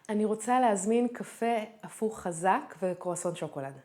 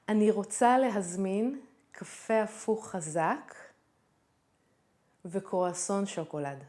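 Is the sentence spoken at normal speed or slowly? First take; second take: normal; slowly. First: The sentence is spoken at normal conversational speed. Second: The sentence is spoken noticeably more slowly.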